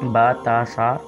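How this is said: The letter names use Arabic vowels: ba, ta, sa. The speaker calls it right. "बा ता सा इस तरह से पढ़ें"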